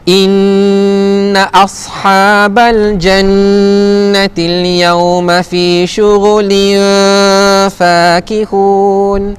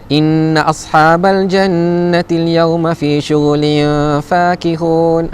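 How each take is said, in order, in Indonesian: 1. Ayat ini dibaca dengan tempo lambat. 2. Ayat ini dibaca dengan tempo cepat. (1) "Kalau saya baca perlahan ya" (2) "tapi kalau kita baca berlaju kan"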